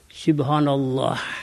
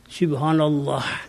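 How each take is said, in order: No difference in how they are said.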